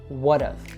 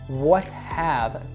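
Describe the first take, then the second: First: The h is dropped and the t is flapped. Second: The h is pronounced and the t is clear. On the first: "we'll actually cut the H in weak words like have" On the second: "So what have comes"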